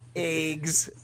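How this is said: It is said with a Californian-style pronunciation.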